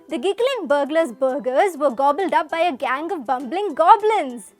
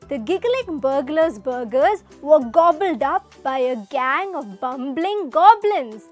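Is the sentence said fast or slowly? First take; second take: fast; slowly. First: The sentence is said at a fast pace. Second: The sentence is said at a slow pace. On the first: "but in a faster pace?" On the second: "Let's read it slowly"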